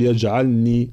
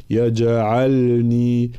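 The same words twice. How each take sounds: First: يجعلني with the lam merged into the nun; wrong merged lam. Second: يجعلني slowly with qalqala on the jim and a clear lam. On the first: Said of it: "فلا نقول يجعلني". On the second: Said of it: "لا، يجعلني". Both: Shown as a demonstration.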